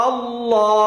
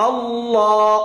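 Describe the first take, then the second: No difference in how they are said.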